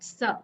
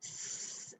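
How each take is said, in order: First: A hissing sound followed by an added vowel. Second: A pure hissing sound with nothing added after. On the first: The speaker calls it wrong. "and not S. So no um, sound being added towards the end" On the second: The speaker calls it right. "the sound of the letter S is S"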